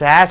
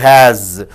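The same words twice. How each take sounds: First: The word ends with a hissing S sound. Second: The word ends with a buzzing Z sound. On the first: "S is changed into Z" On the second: "S is changed into Z"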